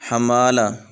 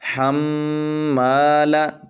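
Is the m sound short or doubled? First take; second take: short; doubled. First: The m sound is short, not doubled. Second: The m sound is held and doubled. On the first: The speaker calls it wrong. "इस तरह नहीं पढ़ना" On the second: The speaker calls it right. "बल्कि हम्माला"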